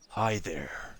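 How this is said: It is said in a menacing, angry way.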